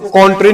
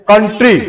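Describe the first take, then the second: First: The first vowel is a rounded 'aw' sound. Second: The first vowel is an unrounded 'uh' sound. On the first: The speaker calls it wrong. "इसको कॉन्ट्री नहीं बोलेंगे हम" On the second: The speaker calls it right.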